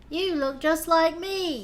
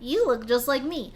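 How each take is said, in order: First: It is said in a put-on British accent. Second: It is said in the speaker's ordinary accent.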